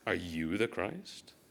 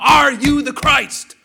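First: It is said with a mocking, sarcastic tone. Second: It is said angrily and forcefully.

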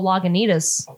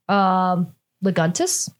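First: The word is said with four syllables. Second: The word is said with three syllables. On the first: The speaker calls it right. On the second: The speaker calls it wrong.

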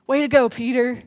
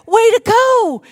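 First: It sounds sarcastic and scolding. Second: It sounds warm and celebrating.

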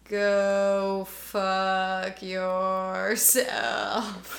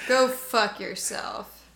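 First: It is said a little slower. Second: It is said at normal speed.

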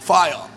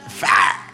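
First: It is said in an Australian accent. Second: It is said in an Alabama accent.

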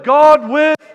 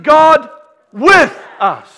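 First: The stress falls on the word 'us'. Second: The stress falls on the word 'with'. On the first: We are the ones God is with. "And who's God with?" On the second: God is right here with us. "Where is He?"

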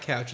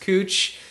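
First: The vowel sounds like the one in 'cow'. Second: The vowel sounds like the one in 'food'. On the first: The speaker calls it wrong. "It's not couch" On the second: The speaker calls it right. "it's cooch"

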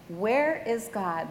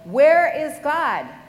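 First: It is said quietly and calmly. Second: It is yelled very loudly. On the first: "The pastor calmly asked" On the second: "he yelled"

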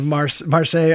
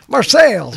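First: The name is said in the original French way. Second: The name is said in a mangled hillbilly way. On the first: "the hillbilly version of Marseille" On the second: "they didn't know how to pronounce it. Marseilles"

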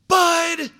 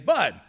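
First: The name is shouted as loudly as possible. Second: The name is called calmly at moderate volume. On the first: The speaker is trying to frighten the child into stopping. "as loud as I can" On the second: The speaker is trying not to panic. "I try to not to panic, and I say"

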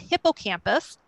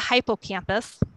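First: The first syllable sounds like 'hip'. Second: The first syllable sounds like 'hype'.

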